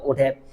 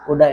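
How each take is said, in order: First: Every word is said fully and separately. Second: The words are contracted and blended together. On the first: "instead of would have" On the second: "use woulda"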